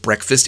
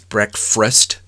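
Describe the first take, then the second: First: The word is pronounced in the standard way. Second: The word is pronounced with a childlike mispronunciation. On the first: The speaker calls it right. "he pronounces it instead of breakfast" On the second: The speaker calls it wrong. "it's little kids mispronounce things"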